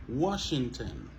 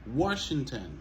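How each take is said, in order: The two takes are said the same way.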